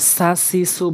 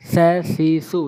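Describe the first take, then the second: First: The first consonant is said heavily. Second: The first consonant is said very lightly. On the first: The speaker calls it wrong. "আমরা সা সি সু বলবো না" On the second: The speaker calls it right. "একদম হালকা করে"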